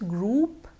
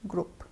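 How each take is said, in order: First: The vowel is a long oo sound. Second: The vowel is a short uh sound. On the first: The speaker calls it right. "the correct pronunciation is group" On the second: The speaker calls it wrong. "and not group"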